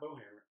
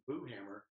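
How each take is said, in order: First: The first syllable sounds like 'bow'. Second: The first syllable sounds like 'boo'. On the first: The speaker calls it wrong. "it's not Bowhammer" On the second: The speaker calls it right. "That's how you pronounce it"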